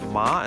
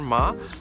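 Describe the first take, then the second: First: The syllable is said with a rising pitch. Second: The syllable is said without a rising pitch. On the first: "now they put a second tone on that" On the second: "the last character"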